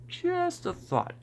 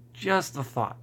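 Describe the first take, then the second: First: Just a thought said high and slow; mock squeak. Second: Said in the usual way. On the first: Shown as a demonstration. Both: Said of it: "repeat in squeaky voice".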